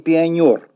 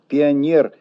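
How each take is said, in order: First: The stressed last vowel is 'yo'. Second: The stressed last vowel is a plain 'e'. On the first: The word would be treated as a native Russian word. The speaker calls it wrong. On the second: The word is still felt as a foreign borrowing. The speaker calls it right.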